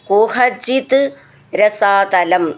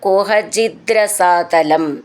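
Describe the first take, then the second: First: The two words are said separately. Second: The two words run together as one.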